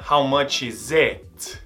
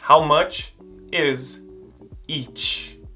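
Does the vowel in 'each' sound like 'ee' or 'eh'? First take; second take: eh; ee. First: The vowel in 'each' sounds like 'eh'. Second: The vowel in 'each' sounds like 'ee'. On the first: The speaker calls it wrong. "Não é how much is it?" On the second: The speaker calls it right. "o som dela vai ser de I, igual de igreja"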